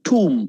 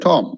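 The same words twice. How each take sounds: First: Tomb as "toom", silent B; long "oo" in tomb; correct pronunciation. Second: Tomb as "tome"; wrong pronunciation. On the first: Teacher correcting learners, tomb pronounced like t-o-o-m. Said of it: "It's tomb". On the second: Teacher giving Taj Mahal example, tomb mispronounced. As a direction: give tomb a long O. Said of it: "It's wrong". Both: Shown as a demonstration.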